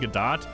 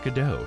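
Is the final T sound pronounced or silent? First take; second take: pronounced; silent. First: The final T sound is pronounced. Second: The final T sound is silent. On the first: The speaker calls it wrong. "I was saying uh, Godot's name wrong" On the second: The speaker calls it right. "it's actually silent T"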